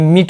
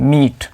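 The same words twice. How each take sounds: First: The vowel is short and clipped. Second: The vowel is long and stretched. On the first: The speaker calls it wrong. "इसे मीट नहीं" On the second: The speaker calls it right. "बड़ी ई ई की sound को थोड़ा खींचते हैं, stretch करते हैं"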